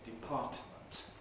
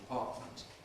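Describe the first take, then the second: First: The middle t is released separately before m. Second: The middle t is a glottal stop. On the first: It is an over-articulated, very careful form. "release the alveolar stop separately" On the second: It is the normal everyday form. "use a glottal stop here all the time"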